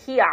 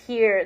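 First: "here" as "hee-ah", no final R; Australian "here". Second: "here" with the final R sounded; American "here". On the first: Streamer showing her adopted Australian, "here" said "hee-ah" without the R. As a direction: drop the R at the end of "here". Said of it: "ya adopté el australiano". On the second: Streamer showing what Australians don't say, "here" with the R pronounced. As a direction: say "here" ending on a clear R. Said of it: "no dices here, dices here". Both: Shown as a demonstration.

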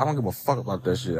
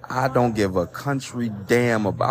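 First: Fast, blunt, a bit softer, with "fuck" said outright; uncensored version. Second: Said in the usual way. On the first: Shown as a demonstration. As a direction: rattle it off quickly and swear for real on "fuck". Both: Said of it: "I gotta say fuck".

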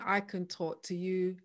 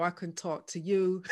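First: Said in the usual way. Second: Light Bajan lilt; playful hint of a Barbadian accent. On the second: Shown as a demonstration. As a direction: say it with a touch of Bajan. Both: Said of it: "I'm gonna g-, talk Bajan now".

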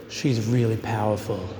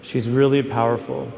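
First: Light Australian twang on "She's really powerful"; a hint of an Aussie friend's voice; lightly imitated Australian accent. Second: Said in the usual way. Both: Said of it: "his Australian accent".

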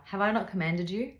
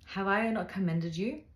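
First: "commanded" with an open a, said correctly; rereading with "commanded" fixed; corrected word. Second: "commended" with a short e, the misreading; reading "commended" before catching the slip; misread word. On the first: Rereading the Bible verse aloud with "commanded" corrected. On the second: Misreading the Bible verse as "commended". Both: Real, not acted.

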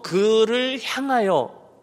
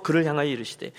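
First: 그를 향하여 drawn out slowly; slow, weighty emphasis on 그를 향하여; stress on 그를 향하여. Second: Said in the usual way. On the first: Shown as a demonstration. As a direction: stretch out each word of 그를 향하여. Preacher singles out the phrase.

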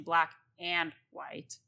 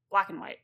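First: Every sound of "black and white" said clearly; "black and white" with a crisp A and D in "and"; careful full pronunciation. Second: "Black and white" run into one word, the "and" cut to a short "n"; casual run-together "Black and white"; rolled together. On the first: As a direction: spell out "black and white" word by word. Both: Shown as a demonstration. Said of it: "Just rolling it all together".

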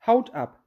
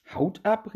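First: Curt falling answer, "Haut ab" dropped flatly at the end; dry. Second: "Haut ab?" thrown up in a rising, incredulous call; astonished question. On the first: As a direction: state the name matter-of-factly, no fuss. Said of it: "sagte die Katze ganz trocken". (trocken und knapp) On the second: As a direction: echo the odd name back in disbelief. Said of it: "rief die Maus". (ungläubig fragend ausgerufen) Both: A narrator's reading.

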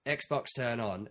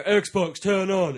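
First: Slow, careful "Xbox, turn on"; slow command voice. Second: Raised, louder "Xbox, turn on"; loud command. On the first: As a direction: spell it out to the machine slowly. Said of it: "You walk in and you go". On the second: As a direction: shout it at the machine. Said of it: "And then you go". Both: Retold or imitated.

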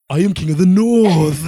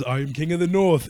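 First: Loud, high, exaggerated northern English proclamation; hammed-up Game of Thrones accent. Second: Lightly imitated northern English declaration; Game of Thrones accent. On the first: Repeating Game of Thrones at the TV, exaggerated accent. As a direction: parrot the show grandly in a put-on accent. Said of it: "repeating what the fuck they're saying". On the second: Quoting a line from Game of Thrones, light accent imitation. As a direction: quote the show with a light put-on accent. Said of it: "fucking Game of Thrones is".

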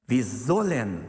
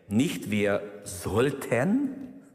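First: "sollen" slowed and firm; stress on sollen. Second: "sollten" said very slowly as the wrong word; stress on sollten. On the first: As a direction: hit "sollen" as a command. ("sollen" langsam und nachdrücklich betont) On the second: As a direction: drag out "sollten" in contrast. ("sollten" sehr langsam, als Gegenbeispiel) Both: Shown as a demonstration. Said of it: "das Wort sollen steht hier".

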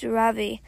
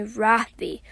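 First: "Ravi" with a soft "ra" and a strong "vi"; native pronunciation. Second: "Ravi" stressed on the first syllable, RAH-vee. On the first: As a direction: say "Ravi" softening the first syllable, firm on the second. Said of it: "with a soft ra and a strong v". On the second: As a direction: lean on the opening "Ra" of "Ravi". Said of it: "with the stress on the first syllable". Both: A narrator's reading.

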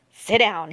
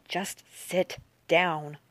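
First: Mildly angry order. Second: Soft, very slow order; said softly. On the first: Park to the girl, offering the seat, mildly angry. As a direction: say it with a touch of anger. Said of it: "It came out angrily". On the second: Park nodding the girl to the seat, softly and slowly. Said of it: "Park said softly". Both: A narrator's reading.

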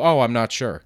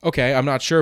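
First: "I'm not sure" closed off with a falling tune; dead-end answer. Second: "I'm not sure" higher, rising towards more; helpful answer. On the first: Worker brushing off a customer, falling dead-end answer. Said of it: "You don't just go". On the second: Worker about to offer a customer help, open rising tune. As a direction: leave "sure" lifted, an offer to follow. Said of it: "You always give a little something". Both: Shown as a demonstration.

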